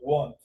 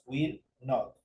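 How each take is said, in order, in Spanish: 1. Se dice como una sílaba unida. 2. Se dice como dos palabras separadas. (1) "En la contracción se unen estas dos palabras" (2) "dos palabras o dos pronunciaciones distintas"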